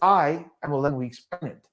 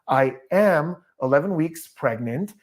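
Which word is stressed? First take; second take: I; am. First: The strongest stress falls on I. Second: The stress falls on am and pregnant. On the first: "That would mean that the surprise is me" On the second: "there's also some emphasis on the am"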